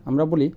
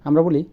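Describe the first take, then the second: The two takes are said the same way.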